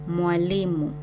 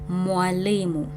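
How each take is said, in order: Both takes have the same delivery.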